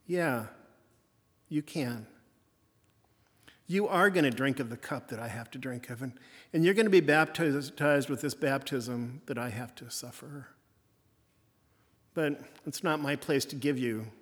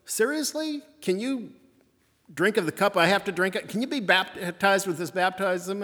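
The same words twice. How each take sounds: First: Softened Jesus. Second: A sharp higher "Seriously?", then a pressing challenge; Jesus testing James and John, mildly incredulous; challenging Jesus. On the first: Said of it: "And he softens". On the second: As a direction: put the disciples on the spot, lightly acted. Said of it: "Jesus first responds and says". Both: Retold or imitated.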